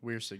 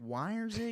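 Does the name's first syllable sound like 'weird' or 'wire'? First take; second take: weird; wire. First: The first syllable sounds like 'weird'. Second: The first syllable sounds like 'wire'. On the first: The speaker calls it right. "It's just weird, weird" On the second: The speaker calls it wrong. "no, not not wi- not Wiresig"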